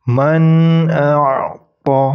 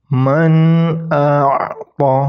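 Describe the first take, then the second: Both takes have the same delivery.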